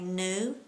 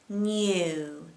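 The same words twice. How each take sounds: First: The vowel follows the n with no y glide. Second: A y glide comes between the n and vowel. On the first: The speaker calls it wrong. "A lot of people tend to say" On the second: The speaker calls it right. "Say you, and then all you need to do is add an N to the front"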